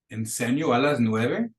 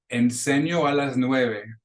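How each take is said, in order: First: The voice rises at the end. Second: The voice falls at the end.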